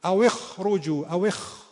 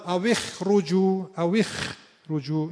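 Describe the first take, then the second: First: اخرجوا with a slightly heavy, back خ; correct partial tafkhim. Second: اخرجوا slow, with a thin, light خ after i; kha without tafkhim. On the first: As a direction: keep some darkness on the خ in اخرجوا. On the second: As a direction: strip all heaviness from the خ in اخرجوا. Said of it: "خالی از تفخیم شد". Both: Shown as a demonstration.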